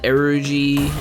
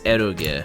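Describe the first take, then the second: First: The word is pronounced like an English word. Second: The word is pronounced like a Japanese word. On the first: "Is it Erogy?" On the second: "pronounced like Japanese"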